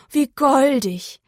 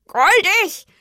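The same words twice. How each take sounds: First: Slow, drawn-out "goldig", full of delight; cooing. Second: High, loud, indignant crow croak. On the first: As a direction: coo "goldig" slowly, charmed. Cow admires, crow echoes scornfully. ("goldig" entzückt und gedehnt) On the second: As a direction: croak it back as an offended question. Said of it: "krächzte die Krähe". (empört gekrächzt, hoch und laut) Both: A narrator's reading.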